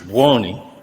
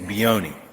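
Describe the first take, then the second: First: The name is pronounced the Italian way. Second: The name is pronounced the anglicized way. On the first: This is how Italians would say it. The speaker calls it right. "properly is Buoni" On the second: This is how the family says it. The speaker calls it wrong. "we pronounce it improperly. We say Bioni"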